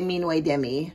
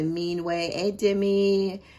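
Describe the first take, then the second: First: The two words run together without 'et'. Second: An extra 'et' sound joins the two words. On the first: This is how the speaker personally says it. "I just say" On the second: This is how many other people say it. "I hear a lot of people pronouncing it"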